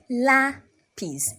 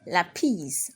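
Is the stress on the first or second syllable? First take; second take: first; second. First: The stress is on the first syllable. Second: The stress is on the second syllable. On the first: The speaker calls it right. "you raise your voice at a" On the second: The speaker calls it wrong. "and not lápiz"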